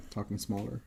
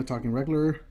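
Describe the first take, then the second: First: Much softer, small voice; quiet. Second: Said in the usual way. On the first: Shown as a demonstration. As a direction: shrink the voice right down.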